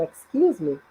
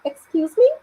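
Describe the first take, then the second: First: "excuse me" low with a falling end; lower, falling "excuse me", no questioning lift; not a question. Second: "Excuse me" rising high at the end; higher, louder questioning "Excuse me". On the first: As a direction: say "excuse me" as asking to get past. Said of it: "aí não é tom de pergunta". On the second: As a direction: ask "Excuse me" as if you didn't catch it. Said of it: "num tom de pergunta". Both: Shown as a demonstration.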